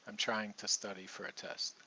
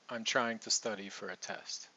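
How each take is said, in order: No difference in how they are said.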